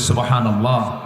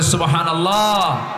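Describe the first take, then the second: First: It is said loudly. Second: It is said even more loudly.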